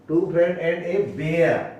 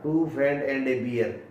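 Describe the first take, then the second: First: The last word rhymes with 'bare'. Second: The last word rhymes with 'beer'. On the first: The speaker calls it right. "ये तो बियर नहीं बेयर है" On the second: The speaker calls it wrong. "इसको बियर पढ़ा था, गलत था"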